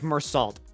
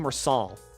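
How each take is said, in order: First: The name ends with a 't' sound. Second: The name ends with an 'l' sound. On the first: The speaker calls it right. "Mersalt is said like Mersalt" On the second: The speaker calls it wrong. "I always called him Mersal"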